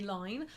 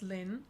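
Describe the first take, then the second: First: The name rhymes with 'fine'. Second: The name rhymes with 'tin'. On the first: The speaker calls it wrong. "people come to the conclusion that it would be line" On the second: The speaker calls it right. "it was pronounced Lynn"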